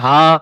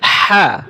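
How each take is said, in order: First: The h is a light, plain breath. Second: The h is deep, from the throat. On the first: The speaker calls it wrong. "আপনি যদি বলেন হা, হবে না।" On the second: The speaker calls it right. "এটা হচ্ছে হাই হত্তি, হা এভাবে বলতে হবে।"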